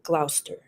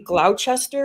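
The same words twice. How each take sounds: First: The name is pronounced the way locals say it. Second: The name is pronounced as it is written. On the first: This is how the name is really said. The speaker calls it right. "it's really Gloucester" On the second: This is how the written name looks. The speaker calls it wrong. "you see Gloucester"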